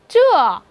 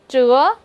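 First: The pitch falls sharply from high to low. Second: The pitch rises from mid to high.

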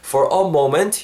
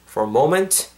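First: The words 'for a' are fully stressed. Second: The words 'for a' are weak and reduced. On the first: The speaker calls it wrong. "관사에도 여러분 강세가 잘 안 들어가죠. 그래서 for a moment 이거보단" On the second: The speaker calls it right. "for a moment 이렇게 발음하시면 좋을 것 같아요"

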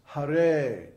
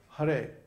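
First: The second syllable is held long, two beats. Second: The second syllable is short, not held longer. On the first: The speaker calls it right. "the first syllable is short and the second syllable is long" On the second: The speaker calls it wrong. "So it's not Hare"

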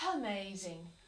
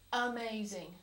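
First: The word starts softly with a slight breath. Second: The word starts with a hard glottal catch. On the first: The speaker calls it right. "a soft initiation, which involves a slight breath" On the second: The speaker calls it wrong. "You use a glottal stop, your throat actually comes together to make that sound"

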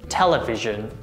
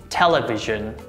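No difference in how they are said.

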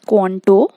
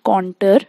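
First: The word is said as 'conto'. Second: The word is said as 'contour'. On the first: The speaker calls it right. "You pronounce it as conto" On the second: The speaker calls it wrong. "it's not contour"

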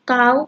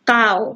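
First: The syllable is said with a high tone. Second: The syllable is said with a low tone.

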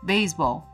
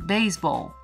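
First: It is said with an English pronunciation. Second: It is said with an English pronunciation.

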